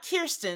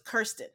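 First: The first syllable does not rhyme with fur. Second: The first syllable rhymes with fur. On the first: The speaker calls it wrong. "Not Kirsten, like we've been saying" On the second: The speaker calls it right. "It's like Kerr, like fur. So it's Kirsten"

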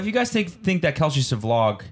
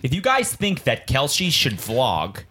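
First: The words are spoken quickly and casually. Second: Each word is pronounced slowly and clearly.

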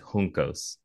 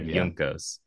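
First: The first sound is a Spanish breathy J. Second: The first sound is an English J. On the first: The speaker calls it right. "as you would say the J, like you would in Spanish" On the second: The speaker calls it wrong. "instead of"

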